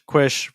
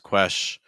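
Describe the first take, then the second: First: The first vowel is placed higher. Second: The first vowel is placed lower, like eh. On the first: The speaker calls it wrong. "quish versus question" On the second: The speaker calls it right. "Trying to lower placement on that S sound"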